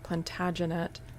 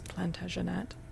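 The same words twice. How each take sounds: First: The word is stressed the English way. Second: The word is stressed the French way. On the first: "if it's being pronounced in an English accent, the emphasis would be" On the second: "maybe the more French is"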